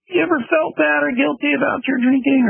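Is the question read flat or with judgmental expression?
judgmental. It is read with judgmental, exaggerated expression.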